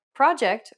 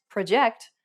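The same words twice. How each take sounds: First: "project" as the noun, PRO-ject; first-syllable stress. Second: "project" as the verb, pro-JECT; second-syllable stress. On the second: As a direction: hit the last syllable of "project". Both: Shown as a demonstration. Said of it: "Consider some examples in English".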